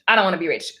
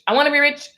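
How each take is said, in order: First: Dropped lower, dismissive about-face; mock refusal. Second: Lifted pitch, mock-insistent wanting; mock eager wish. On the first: Acting out flip-flop energy, mock low refusal. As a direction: drop down for the contrary side. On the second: Acting out flip-flop energy, mock eager wish. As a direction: punch it up as the wanting side.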